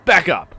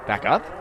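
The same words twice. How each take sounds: First: Loud, high bark to retreat; shouted order. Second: Said in the usual way. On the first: Acted. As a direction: shout it as a police command. Voices the woman's shouted order.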